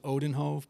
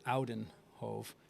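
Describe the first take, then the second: First: The name is said the family's anglicized way. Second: The name is said the Dutch or Belgian way. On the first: This is how the family says it. "the pronunciation that we've always used in my family" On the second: This is how people from the Netherlands or Belgium say it. "they've always pronounced it"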